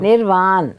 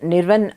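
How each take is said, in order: First: The second syllable has a long 'aa' vowel. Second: The second syllable has a short 'a' vowel. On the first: This is the intended pronunciation of the name. The speaker calls it right. "ఆ అని అనడానికి రెండు ఏలు రాయాలి" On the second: This is how the single-A spelling gets read. The speaker calls it wrong. "నిర్వన్ నిర్వన్ అని అంటారు"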